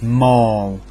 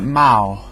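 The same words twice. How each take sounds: First: The word rhymes with 'all'. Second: The word rhymes with 'pal'. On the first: The speaker calls it right. "Ends in A double L, as in all" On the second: The speaker calls it wrong. "where they get Mal from"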